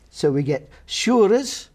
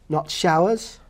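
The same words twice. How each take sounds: First: "shurers" with an oo vowel, Scots style. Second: Said in the usual way. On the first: Shown as a demonstration. Scholar demonstrating Middle English vowel, "shurers" with oo. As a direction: say "shurers", ow as a long oo. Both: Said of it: "ow is going to emerge as oo".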